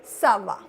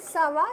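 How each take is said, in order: First: "Ça va" as a statement, dropping on "va"; answer intonation. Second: "Ça va" asked, pitched higher; higher-pitched, questioning "Ça va"; question intonation. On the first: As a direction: answer with a louder, falling "Ça va". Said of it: "you can also answer". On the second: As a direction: lift "Ça va" into a question. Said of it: "if the question is". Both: Shown as a demonstration.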